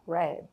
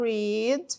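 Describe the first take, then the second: First: The vowel is short, as in 'red'. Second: The vowel is long, as in 'reed'. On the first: It is the past tense. "essa pronúncia desse verbo no passado fica read" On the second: It is the present tense. "esse daqui a gente fala read"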